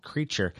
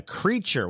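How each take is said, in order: First: Said in the usual way. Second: High, delighted exclamation of the name Creature; amused surprise. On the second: Real, not acted. Host reading a lost cat's odd name, surprised. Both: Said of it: "What a crazy name for a cat".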